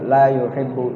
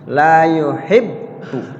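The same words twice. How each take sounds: First: The double b is said vaguely and lazily. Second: The double b is pressed and held two beats. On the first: The speaker calls it wrong. "jangan dibaca agak sedikit samar-samar, malas-malas" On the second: The speaker calls it right. "ada penekanan di bab pertama dan ditahan bareng bareng bareng dua ketukan"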